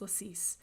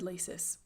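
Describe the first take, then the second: First: It sounds different from the English word laces. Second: It sounds like the English word laces. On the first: This is how the speaker thinks it should be said. The speaker calls it right. "but I think it's Lacis" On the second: This is how the speaker always used to say it. The speaker calls it wrong. "I always said Laces"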